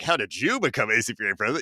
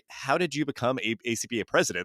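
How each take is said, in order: First: The main stress falls elsewhere than 'how'. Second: The word 'how' carries the main stress. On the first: The speaker calls it wrong. "less so of like" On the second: The speaker calls it right. "the emphasis is on the how"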